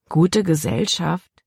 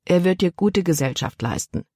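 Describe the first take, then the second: First: Gute Gesellschaft repeated slowly as a doubting question; girl scoffing at her father's words; incredulous echo. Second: Said in the usual way. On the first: A narrator's reading. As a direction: echo gute with slow disbelief. Daughter echoes father in disbelief.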